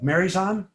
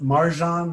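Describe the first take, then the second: First: A 'y' sound is heard in the middle. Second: The syllables run together without a 'y' sound. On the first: "like letter Y" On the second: "like that, kind of together"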